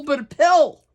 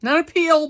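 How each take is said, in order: First: "pill" with a short i, higher and louder; loud, high teasing "pill" with a short i; stressed pill. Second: "peel" with a long ee, higher and louder; loud, high teasing "peel" with a long ee; mock peel. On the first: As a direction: land the short "pill" firmly. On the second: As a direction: play up "peel" against "pill". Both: Shown as a demonstration.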